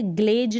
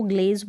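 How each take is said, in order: First: ग्लेज said as "glej" with a j sound at the end; deliberately wrong "glej" for ग्लेज, ending in j; wrong pronunciation. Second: ग्लेज said as "glez" with a z sound at the end; the right way: ग्लेज ending in a clear z; correct pronunciation. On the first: Teacher showing students the wrong way: ग्लेज as "glej". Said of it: "ग्लेज ना पढ़ें इसको". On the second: Teacher giving students the correct form: ग्लेज as "glez". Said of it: "ग्लेज पढ़ेंगे". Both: Shown as a demonstration.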